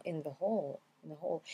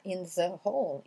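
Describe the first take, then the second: First: "in the hall" linked, "the" reduced; THE blended in. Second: "in the hall" with "the" fully sounded; full separate THE. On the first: Teacher shows what English speakers say, "in the hall" run together. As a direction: melt "the" into the N of "in". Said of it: "Ils viendront le mêler". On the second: Teacher shows what English speakers won't say, "in the hall" word by word. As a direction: keep "in" and "the" apart, TH clearly articulated. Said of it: "ils vont pas dire the". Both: Shown as a demonstration.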